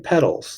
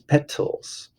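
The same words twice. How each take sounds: First: The middle consonant sounds like a D. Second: The middle consonant is a clear T. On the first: The speaker calls it wrong. "Don't say petals like, like a bike pedal" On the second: The speaker calls it right. "There's a T in there. This is petals"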